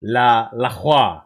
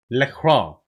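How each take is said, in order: First: "La Croix" slow as /la xwa/ with a throaty r; French pronunciation. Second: "La Croix" said as English /lə kɹɔ/; plain English r; anglicized. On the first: Streamer practicing the French name. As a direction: roll the r in the throat, French style. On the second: Streamer slipping back to English pronunciation. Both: Shown as a demonstration. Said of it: "That's how I gotta say it".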